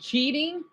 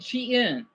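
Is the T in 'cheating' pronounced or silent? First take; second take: pronounced; silent. First: The T sound in the middle is pronounced. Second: The T sound in the middle is silent. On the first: "instead of saying cheating" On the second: "I make the T silent"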